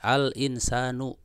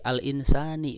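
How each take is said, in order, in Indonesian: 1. Kata ini berakhir dengan vokal u. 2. Kata ini berakhir dengan vokal i. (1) "pakai dhammah" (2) "pakai kasrah"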